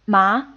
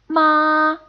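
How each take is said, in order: First: The pitch rises upward through the syllable. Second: The pitch stays high and level throughout. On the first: It means hemp. "it takes on the second tone" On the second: It means mother. "a high, even, and constant tone"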